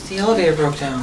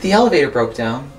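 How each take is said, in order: First: It is said in a shy, timid tone. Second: It is said in a plain, neutral tone.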